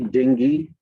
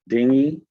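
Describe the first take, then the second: First: The g is said as a hard stop. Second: The g is said without a hard stop. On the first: "You can also hit it with hard G" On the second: "we pronounce it dinghy"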